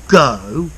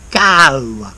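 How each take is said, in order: First: The vowel is a plain standard o sound. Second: The vowel glides widely like ow. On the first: The speaker calls it wrong. "not go" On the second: The speaker calls it right. "ow, it becomes like a triphthong"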